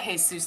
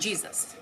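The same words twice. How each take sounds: First: It is said with Spanish sounds, hey-SOOS. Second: It is said with English sounds, JEE-zus. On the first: It names an ordinary man nearby. "I know a Jesus down the street" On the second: It names the religious prophet. "Like in the prophet?"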